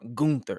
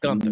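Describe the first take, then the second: First: The first syllable has a long 'oo' vowel. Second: The first syllable has a short 'uh' vowel. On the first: "like G O O N T H E R" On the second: "and not Gunther"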